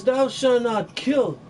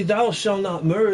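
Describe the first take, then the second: First: "kill" drawn out and set apart; slow it down and land on "kill" as the correction; weight on "kill", said slowly; stress on kill. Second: Said in the usual way. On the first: Shown as a demonstration. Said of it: "It says". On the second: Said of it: "it doesn't say".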